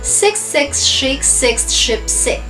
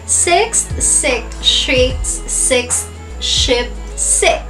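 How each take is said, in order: First: It is said at a faster pace. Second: It is said at a slower pace.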